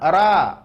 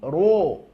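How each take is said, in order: First: The ra sounds light, with an a vowel. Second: The ra sounds heavy, with an o vowel. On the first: The speaker calls it wrong. "Bukan ra" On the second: The speaker calls it right. "huruf tebal bunyi vokalnya adalah huruf o"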